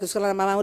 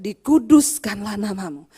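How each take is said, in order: First: It is recited in a flat, rote, mechanical way. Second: It is recited with fervent, heartfelt conviction. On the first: The prayer is said only from memory. The speaker calls it wrong. "mengucapkannya jangan begini" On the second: The prayer is said with faith. The speaker calls it right. "ucapkan dengan iman"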